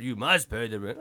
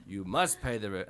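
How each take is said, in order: First: Louder sneering melodrama villain line; sneering panto villain. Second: Sneering panto villain. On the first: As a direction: lean in like Snidely Whiplash. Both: Retold or imitated. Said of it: "Snidely whiplash".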